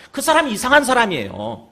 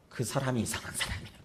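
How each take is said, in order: First: 사람이 rising, higher and louder; loud rising insistence; emphatic repeat. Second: 사람이 said softly with a falling close; soft aside with falling tune; low-key remark. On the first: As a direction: punch 그 사람이 이상한 사람이에요 up to the crowd. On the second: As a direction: drop the voice on 그 사람이 이상한 사람이에요. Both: Shown as a demonstration.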